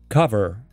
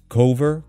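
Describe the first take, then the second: First: The first vowel is a short 'uh' sound. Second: The first vowel is a long 'oh' sound. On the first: The speaker calls it right. "it's a short a sound rather than o" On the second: The speaker calls it wrong. "Often it's pronounced as cover, cove"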